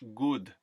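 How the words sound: The vowel is a simpler, purer sound.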